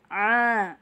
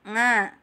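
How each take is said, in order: First: The sound is pushed deep into the throat. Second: The sound stays in the mouth, slightly nasal. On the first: The speaker calls it right. "itu yang benar" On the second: The speaker calls it wrong. "yang belum benar adalah yang di mulut"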